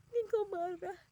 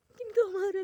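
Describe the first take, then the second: First: Crying plea. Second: Anguished outburst. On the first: Praying to God in tears, a tearful plea. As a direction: murmur the fear through crying. Crying prayer, repeated louder next. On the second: Praying to God, crying out the plea louder. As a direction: cry out louder and higher in despair. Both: Retold or imitated.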